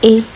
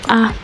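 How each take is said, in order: First: The letter is given its English pronunciation. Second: The letter is given its Igbo pronunciation. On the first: "in English you say A" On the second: "in Igbo you're going to say A"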